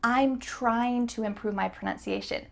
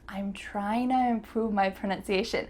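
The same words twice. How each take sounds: First: The phrase 'trying to' is said in full. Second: The phrase 'trying to' is reduced to 'tryna'. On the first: "Is this the fastest way to say this sentence? Nope" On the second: "The word to is going to change to a"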